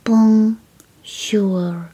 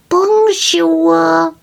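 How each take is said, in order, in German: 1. Das Wort wird sehr langsam gesagt. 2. Das Wort wird in normalem Tempo gesagt.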